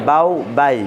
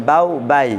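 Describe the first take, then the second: No difference in how they are said.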